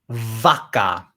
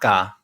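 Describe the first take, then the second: First: The word begins with a V sound. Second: The word begins with a B sound. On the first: "if you see a V, say a V" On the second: "a B sound"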